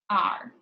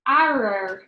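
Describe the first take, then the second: First: It is one syllable, like the letter R. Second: Each letter is sounded, giving two syllables. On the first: The speaker calls it right. "you pronounce it are" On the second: The speaker calls it wrong. "It sounds really tricky that way"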